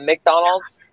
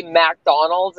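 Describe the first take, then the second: First: "McDonald's" with a short "Mick" at the start; standard pronunciation. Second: "McDonald's" with a full "Mack" at the start; own odd pronunciation. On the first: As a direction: say "McDonald's" as mick-DON-alds. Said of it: "instead of McDonald's". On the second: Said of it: "I say McDonald's instead of McDonald's". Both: Shown as a demonstration.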